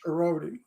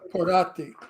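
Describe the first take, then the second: First: The name is said with an American accent. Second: The name is said with an Italian accent.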